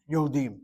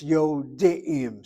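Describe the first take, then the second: First: "Yodim" with the ayin erased, the dalet taking the long vowel; wrong Yodim. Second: "Yodim" slowly, sounding the shva na under the ayin; correct Yodim. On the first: Teacher shows students the wrong form, ayin dropped. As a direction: say "Yodim" the careless Israeli way, swallowing the ayin. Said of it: "That's what it sounds like". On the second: Teacher models the right form slowly for the class, ayin sounded. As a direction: stretch out "Yodim" so every syllable is heard. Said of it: "That's incorrect completely". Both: Shown as a demonstration.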